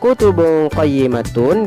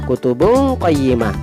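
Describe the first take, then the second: First: The last word ends with a full -tun ending. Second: The last word ends on a soft h sound.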